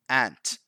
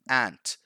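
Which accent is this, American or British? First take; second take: American; American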